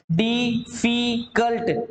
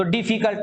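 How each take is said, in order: First: डिफिकल्ट slowly split into di, fi, kalt; syllable by syllable. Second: Said in the usual way. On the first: Shown as a demonstration. Teacher showing three syllables to students, डिफिकल्ट said slowly as di-fi-kalt. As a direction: break डिफिकल्ट into three separate, drawn-out beats. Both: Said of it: "तीन मात्रा आ गई".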